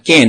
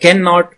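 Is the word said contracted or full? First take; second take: contracted; full. First: The word is shortened to one syllable. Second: The word is said fully with two syllables.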